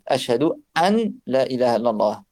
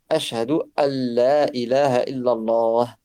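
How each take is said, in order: First: The n of 'an' is clearly pronounced. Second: The n of 'an' merges fully into 'la'. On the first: "c'est un sukun en fait" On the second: "avec en appliquant la règle de tajwid. C'est le mieux"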